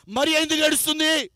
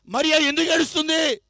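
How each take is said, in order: Both takes have the same delivery.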